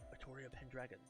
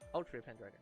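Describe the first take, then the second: First: The name is said as Atoria, with an extra vowel. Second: The name is said as Ultria, without an extra vowel. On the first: The speaker calls it right. "Unlike Atoria" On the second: The speaker calls it wrong. "that doesn't sound great"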